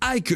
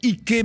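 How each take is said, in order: First: The name is pronounced the American English way. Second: The name is pronounced the local African way. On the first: The speaker calls it wrong. "je le dis à l'américaine" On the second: The speaker calls it right. "comme sur notre continent"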